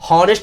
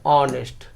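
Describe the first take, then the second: First: The word starts with an h sound. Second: The word starts with a vowel sound. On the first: The speaker calls it wrong. "हॉनेस्ट नहीं पढ़ते हैं" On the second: The speaker calls it right. "इसे क्या पढ़ते हैं, ऑनेस्ट"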